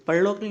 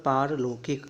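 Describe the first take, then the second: First: परलौकिक with short "par"; brief first vowel in परलौकिक; wrong form. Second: पारलौकिक with long "paar"; correct form. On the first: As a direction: say परलौकिक as pur-lo-kik. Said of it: "नहीं होता". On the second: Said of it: "ये होता है". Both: Shown as a demonstration.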